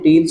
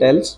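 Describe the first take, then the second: First: The vowel is a long 'ee' sound. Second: The vowel is an 'e' sound. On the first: "कोई टील्स भी पढ़ सकता" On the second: "ज़्यादातर spoken में टेल्स है"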